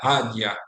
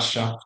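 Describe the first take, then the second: First: The middle consonant is a soft y-like fricative. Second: The middle consonant is a hissing sh-like sound. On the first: This is the western regional pronunciation. "the ye, like uh, non-sibilant fricative" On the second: This is the typical Buenos Aires pronunciation. "the typical Buenos Aires pronunciations"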